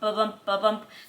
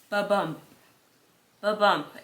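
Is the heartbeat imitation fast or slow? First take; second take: fast; slow. First: The beats follow each other quickly. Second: The beats follow each other slowly. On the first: The heartbeat is normal. "the normal" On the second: The heartbeat has dangerously slowed. "it was really slow"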